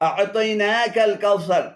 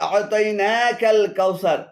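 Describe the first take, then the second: The two takes are said the same way.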